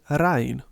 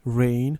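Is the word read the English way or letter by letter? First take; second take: letter by letter; English way. First: Each letter is sounded out, Serbian style. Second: It is pronounced as the English word rain. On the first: The speaker calls it wrong. "in Serbian way of reading, which of course is incorrect" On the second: The speaker calls it right. "Together they form a different sound"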